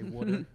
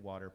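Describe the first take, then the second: First: It is said in a Philadelphia accent. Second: It is said in a Pittsburgh accent.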